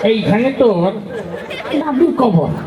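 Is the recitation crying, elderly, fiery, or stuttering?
elderly. It is recited in a slow, old man's voice. An old man is reciting. "মুরব্বী মানুষ আসছে, তার আবৃত্তির ঢং ছিল এরকম"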